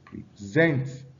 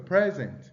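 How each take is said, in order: First: The stress is on the second syllable. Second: The stress is on the first syllable. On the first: It is a verb meaning to give or offer. "the stress on the second syllable for present" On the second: It is a noun meaning a gift. "the stress on the first syllable for present"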